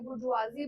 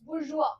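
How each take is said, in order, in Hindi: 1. शब्द का अंत 'zee' ध्वनि से होता है। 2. शब्द का अंत खुले 'ah' स्वर से होता है। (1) "बुर्जुआजी बोलेंगे" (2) "इट्स बुर्जुआ"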